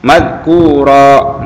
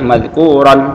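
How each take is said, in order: First: The word ends in a drawn-out vowel. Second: The word ends in a final n sound. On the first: The speaker calls it right. "Jadi berhentinya madhkura" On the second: The speaker calls it wrong. "Nggak boleh madhkuron"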